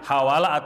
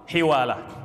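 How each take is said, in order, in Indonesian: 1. Vokal setelah h pertama adalah a. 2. Vokal setelah h pertama adalah i. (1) "dengan fathah" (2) "dengan kasroh huruf h-nya"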